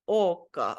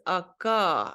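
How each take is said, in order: First: Oka with a round O, stressed OH-ka; Oka, louder, weight on the round first vowel; O as written. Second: Aka with ah first and stress at the end, a-KAH. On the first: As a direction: hit the first O of "Oka" loudly. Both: Shown as a demonstration. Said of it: "Maybe the O is pronounced like A again".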